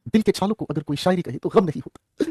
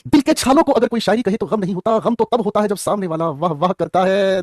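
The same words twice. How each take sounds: First: Slow, soft reading of a couplet; slow poetic recitation. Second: Slow, lifted mushaira-style delivery; shayari flourish. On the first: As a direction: recite it like a shayari. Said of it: "recites the sher twice". (शायरी के अंदाज़ में धीरे से) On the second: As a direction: perform the couplet for applause. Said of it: "recited again with flourish". (मुशायरे वाले अंदाज़ में) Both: Shown as a demonstration.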